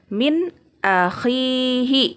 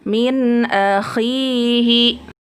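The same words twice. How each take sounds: First: The n sound is cut off before the next word. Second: The n sound flows smoothly into the next word. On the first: The speaker calls it wrong. "Atau diputuskan" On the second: The speaker calls it right. "dibacanya mengalir saja"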